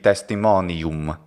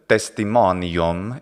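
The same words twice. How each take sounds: First: The final syllable has a clear u vowel. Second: The final syllable has a reduced schwa-like vowel. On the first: The speaker calls it right. "it should be testimonium" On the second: The speaker calls it wrong. "instead of testimonium"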